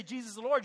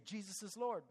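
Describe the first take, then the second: First: Louder, ringing declaration; bold proclamation. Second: Said in the usual way. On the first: Shown as a demonstration. Preacher urging the congregation to declare it, loud. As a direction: proclaim it like scripture. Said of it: "You say". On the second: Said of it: "You want to say".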